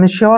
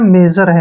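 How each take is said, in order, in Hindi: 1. बीच का व्यंजन sh है, और उसके बाद y आता है। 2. बीच का व्यंजन एक नरम j वाली आवाज़ है। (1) "ये मेश्योर नहीं है" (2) "मेजर है"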